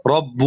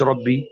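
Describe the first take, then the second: First: رب said rabbu, ending in a clear "u"; damma ending. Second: ربي said rabbee, ending in "i"; rejected ya ending. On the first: Teacher correcting students' expectation, رب ending "-u". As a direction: slowly close رب on "-bu". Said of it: "باعتبارها مبنية على الضم". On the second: Teacher showing the form not meant, ربي ending "-ee". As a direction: close ربي on an "-ee" sound. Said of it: "مش ربي". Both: Shown as a demonstration.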